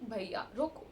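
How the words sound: It is said politely and softly.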